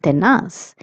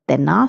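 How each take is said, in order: First: The final z is said with an s sound. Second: The final z is said with a th sound. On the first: This is how it is said in Latin America. "tenaz if you're in Latin America" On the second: This is how it is said in Spain. "tenaz if you're in Spain"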